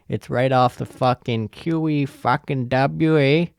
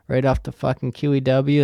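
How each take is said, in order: First: Hammed-up Canadian accent with a tagged "eh"; horrible Canadian accent. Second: Said in the usual way. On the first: Podcaster jokingly placing the buffet by the highway, horrible Canadian accent. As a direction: do a bad mock Canadian accent. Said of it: "That's a horrible Canadian accent".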